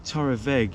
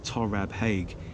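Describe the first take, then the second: First: The middle consonant is pronounced as a V. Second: The middle consonant is pronounced as a B. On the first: The speaker calls it right. "Torra Veg, if you're wondering" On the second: The speaker calls it wrong. "instead of saying Torab Haig"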